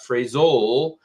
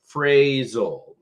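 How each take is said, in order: First: The stress is on the second syllable. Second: The stress is on the first syllable. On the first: The speaker calls it wrong. "So it's not phrasal" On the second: The speaker calls it right. "that's typically where the emphasis in the word is"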